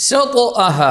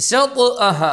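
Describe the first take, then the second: The two takes are said the same way.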